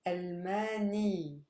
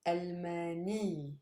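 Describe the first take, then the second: No difference in how they are said.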